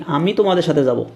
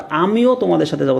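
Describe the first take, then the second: First: Said in the usual way. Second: আমিও said with emphasis; stress on আমিও. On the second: Shown as a demonstration. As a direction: lean into আমিও. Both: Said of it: "মানে জোর দিয়ে আসলে বলতেছি".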